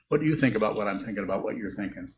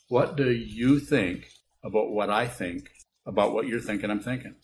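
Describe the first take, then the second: First: It is said at a quicker, normal pace. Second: It is said very slowly.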